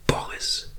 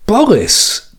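First: Boris nur geflüstert, tonlos; flüstere Boris für dich. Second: Boris hoch und überrascht ausgerufen. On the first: Name leise für sich wiederholt. (Boris leise, nachdenklich geflüstert) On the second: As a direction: ruf Boris erstaunt hoch aus. Name laut überrascht aufgenommen. (Boris erstaunt hoch betont) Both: Acted.

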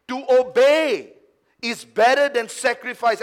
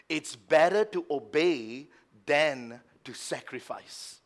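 First: Forceful repeat. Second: Said in the usual way. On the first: Acted. Preacher repeating Samuel's words to Saul, forceful. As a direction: hammer the verse home.

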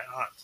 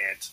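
First: "aunt" with a broad ah vowel, "ahnt"; Massachusetts pronunciation. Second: "aunt" said like "ant"; short a in "aunt", as in "ant"; local pronunciation. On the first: Real, not acted. Retelling a man naming his aunt, Massachusetts "ahnt". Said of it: "My, my Massachusetts came through". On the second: Shown as a demonstration. Correcting himself to the local way, "aunt" as "ant". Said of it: "Is that what we say out here".

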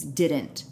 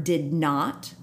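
First: Said in the usual way. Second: "did not" as two separate, deliberate words; inflection on DID NOT. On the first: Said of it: "he purposely didn't use". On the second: Shown as a demonstration. Host showing Clinton's inflection, deliberate "did not". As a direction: give "did not" full, uncontracted weight. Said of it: "there was a inflection on the word".

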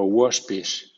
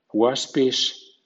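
First: "waspish" with a rounded o, "wospish". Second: "waspish" with an open ah, "wahspish". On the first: Teacher giving second option for W A words, "waspish" with rounded "wo". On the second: Teacher giving first option for W A words, "waspish" with open "wa". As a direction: say "waspish" with "wah". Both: Shown as a demonstration. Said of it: "suena wa o wo".

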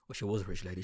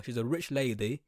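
First: WAS leaned on in a lower, softer correction; softer aside, emphasis on "was"; stress on WAS. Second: Said in the usual way. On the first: Real, not acted. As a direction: lean on "was" to correct the tense.

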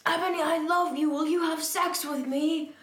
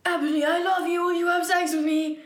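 First: Higher-pitched pleading question, words separated; acted love plea. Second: Rushed, high lovesick blurt; words run together. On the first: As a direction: read the lovesick plea more clearly. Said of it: "asked Snaketail". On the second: Acted. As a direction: rattle it out as if there are no spaces. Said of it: "There's no spaces in between the words".

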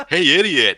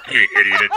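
First: High, bright-pitched mock call; upbeat tone. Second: The set tone. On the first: Demonstrating the tone you can't use, high and called out. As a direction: call it out high, falling at the end. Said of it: "So you can't say, like". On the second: Demonstrating the required same tone, level and unexcited. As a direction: keep it level, near everyday pitch. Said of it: "You have to say". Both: Shown as a demonstration.

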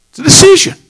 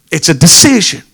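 First: "It's a decision" pitched much higher, rising; high preaching lift. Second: Said in the usual way. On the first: Acted. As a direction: lift the refrain up high and ring it out. Sermon refrain, lifted high.

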